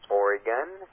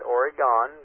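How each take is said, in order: First: The last syllable does not sound like 'gone'. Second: The last syllable sounds like 'gone'. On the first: The speaker calls it right. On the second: The speaker calls it wrong.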